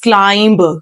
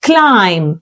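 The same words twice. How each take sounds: First: The final b is sounded. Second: The final b is silent. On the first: The speaker calls it wrong. "so many people pronounce it as climb" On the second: The speaker calls it right. "B जो है यहाँ पे silent है"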